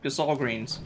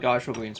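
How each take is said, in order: First: The second syllable sounds like 'sahl'. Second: The second syllable sounds like 'sel'. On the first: The speaker calls it right. "but nope" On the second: The speaker calls it wrong. "I just thought they were Gysel Greens"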